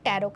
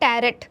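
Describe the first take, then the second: First: The word ends on a vowel without t. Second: The word ends with an audible t sound. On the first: "last वाला टी है ना वो silent होता है" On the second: "इसमें जो spelling आती है टैरेट"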